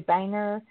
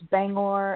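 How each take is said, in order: First: The final syllable is a reduced 'er' sound. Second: The final syllable is a full 'or' sound. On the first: The speaker calls it wrong. "they pronounce Bangor wrong. They'll say Banger" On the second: The speaker calls it right. "it's Bangor"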